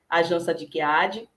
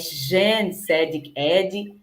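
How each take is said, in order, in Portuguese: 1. O nome Jan Sadik Adi é pronunciado com pronúncia do português brasileiro. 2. O nome Jan Sadik Adi é pronunciado com pronúncia árabe. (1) "Mas no Brasil" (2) "A pronúncia em árabe é mais difícil mesmo"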